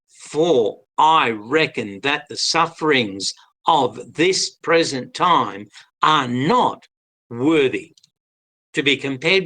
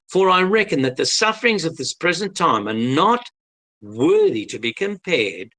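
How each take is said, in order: First: It is read slowly. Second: It is read fast.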